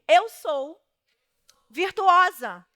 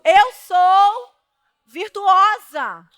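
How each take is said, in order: First: It is said calmly, with ordinary energy. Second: It is said with strong, forceful energy.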